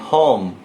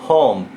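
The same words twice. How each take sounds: The two takes are said the same way.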